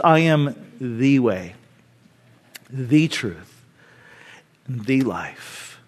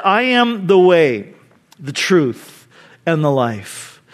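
First: Softer, slow, stress on "the" in "the truth", "the life"; emphatic. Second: Slow, each phrase weighted and set apart; emphatic. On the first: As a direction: lean gently on each "the". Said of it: "Note this". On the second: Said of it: "Jesus is being emphatic here". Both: Shown as a demonstration.

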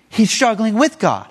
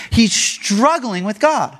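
First: "with" punched as the key word; weight on "with", not "struggling"; stress on WITH. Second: "struggling" drawn out slowly; weight on "struggling", not "with"; stress on STRUGGLING. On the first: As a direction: hit "with" hardest, then fall on "God". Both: Shown as a demonstration. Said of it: "But that's the key".

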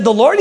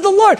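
First: Said in the usual way. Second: Much higher, exclaimed echo; emphatic confirmation. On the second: Retold or imitated. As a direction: throw it back high, with certainty. Pastor confirms answer emphatically.

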